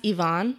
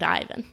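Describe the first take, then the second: First: Ivan as ee-VAHN, stress on the end; Russian pronunciation. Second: Ivan as EYE-vun, stress up front; American pronunciation. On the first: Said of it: "it's pronounced Ivan". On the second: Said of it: "Americans named Ivan". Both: Shown as a demonstration.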